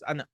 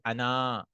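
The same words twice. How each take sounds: First: The word ends in a short a vowel. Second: The word ends in a long a vowel. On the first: The speaker calls it right. "but it's actually Ana, like this" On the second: The speaker calls it wrong. "This alif is written but never read. You'll never say Ana"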